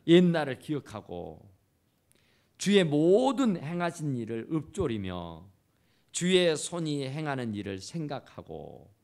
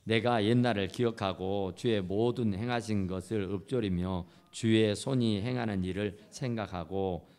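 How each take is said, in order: First: Louder, ringing proclamation of 주의 손이 행하는 일을 생각하고; preacher bringing the verse home to the congregation; preached verse. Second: Much lower, even reading of the verse; scripture reading. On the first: Acted. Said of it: "preaching the same verse". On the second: Shown as a demonstration. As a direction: read the psalm aloud with the congregation. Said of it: "오 절 한번 해볼까요? 시작".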